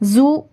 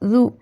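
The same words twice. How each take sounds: First: The first consonant has a sharp, whistling hiss. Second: The first consonant is soft, without a whistling hiss. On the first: The speaker calls it wrong. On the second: The speaker calls it right.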